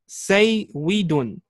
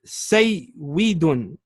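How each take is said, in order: First: The middle consonant is a w sound. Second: The middle consonant is a w sound.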